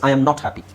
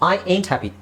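First: "Am not" is said as two full words. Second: "Am not" is shortened into one contracted word.

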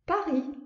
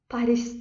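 First: It is said the French way, final s silent. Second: It is said the Azerbaijani way, final s sounded. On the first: "Fransızlar özləri Paris, yəni sondakı S istifadə olunmur" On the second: "Azərbaycan dilində Fransanın paytaxtına Paris deyirik"

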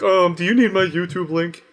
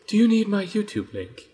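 First: It is said in the speaker's ordinary voice. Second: It is said in a put-on character voice.

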